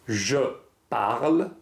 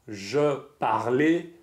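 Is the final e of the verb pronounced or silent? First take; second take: silent; pronounced. First: The verb ends without any final vowel sound. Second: The verb ends with an extra vowel sound. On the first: The speaker calls it right. "Le E à la fin du verbe ne se prononce pas" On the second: The speaker calls it wrong. "Je ne dis pas"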